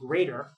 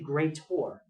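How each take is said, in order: First: The word ends with a normal 'er' sound. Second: The word ends sounding like the word 'or'. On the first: "instead of saying greater" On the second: "say greater"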